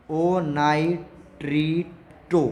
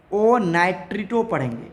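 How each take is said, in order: First: Drawn-out, deliberate naming; ओ नाइट्रिटो said very slowly, syllable by syllable; slow emphasis. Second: Said in the usual way. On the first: Shown as a demonstration. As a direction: stretch ओ नाइट्रिटो so it sticks. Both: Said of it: "याद रखना ये वाली बात".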